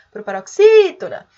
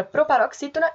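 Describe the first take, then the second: First: Loud hail with "xí" drawn out in "proparoxítona"; ringing call, stressed syllable "xí" held and loud. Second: Said in the usual way. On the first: Shown as a demonstration. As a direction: call "proparoxítona", swelling on the long "xí". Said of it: "se a gente for chamar". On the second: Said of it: "A palavra proparoxítona é também".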